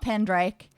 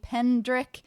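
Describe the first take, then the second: First: The last syllable sounds like 'rake'. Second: The last syllable sounds like 'rick'. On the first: The speaker calls it wrong. "not Pendrake, despite what Bill keeps saying" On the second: The speaker calls it right. "we are playing Penelope Pendrick"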